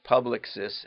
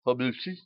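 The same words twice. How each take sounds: First: "Publicis" said as PUB-lick-sis, English style; English reading. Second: "Publicis" as French pub-lee-SEE, final s dropped; French pronunciation. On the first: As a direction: read "Publicis" as PUB-lick-sis with all letters sounded. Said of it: "I don't know how to say this". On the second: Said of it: "that's when I try to speak French". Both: Shown as a demonstration.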